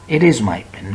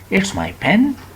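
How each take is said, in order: First: The words are said separately as it is. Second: The words are contracted into it's. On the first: The speaker calls it wrong. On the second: The speaker calls it right.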